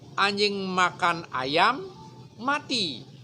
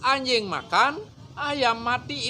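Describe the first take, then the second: First: The pause comes after the word ayam. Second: The pause comes after the word makan. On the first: The dog died from eating the chicken. "kalau dipenggal berikutnya" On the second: The dog ate, and the chicken died. "Yang ketiga sekarang"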